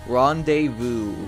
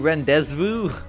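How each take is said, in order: First: The z sound in the middle is silent. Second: The z sound in the middle is pronounced. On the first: "Where's the Z?" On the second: "Shouldn't it be rendezvous?"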